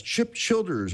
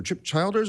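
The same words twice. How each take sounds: First: Put-on Childers with a short i, as in "chill"; first syllable of Childers rhymes with "hill"; short-i pronunciation. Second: Put-on Childers with a long i, as in "child"; first syllable of Childers rhymes with "mile"; long-i pronunciation. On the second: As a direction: say Childers as CHILE-ders. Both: Shown as a demonstration. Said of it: "I don't know how to pronounce that".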